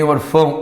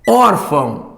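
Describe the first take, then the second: First: The stress is on the last syllable. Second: The stress is on the first syllable. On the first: The speaker calls it wrong. "a tonicidade não está aqui, não é orfã nem orfão" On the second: The speaker calls it right. "é órfão. É o O, aqui o O é tônico"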